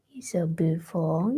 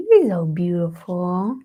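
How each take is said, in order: First: A soft whisper of "You're so beautiful" to the cat; whispered praise. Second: Slow, louder cooing "You're so beautiful" in pet-talk voice. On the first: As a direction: breathe "You're so beautiful" almost without voice. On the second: Cooing to her cat. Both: Real, not acted.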